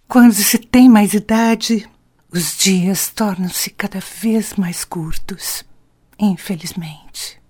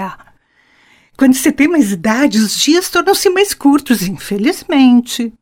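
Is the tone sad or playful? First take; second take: sad; playful. First: It is said in a sad tone. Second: It is said in a playful, joking tone.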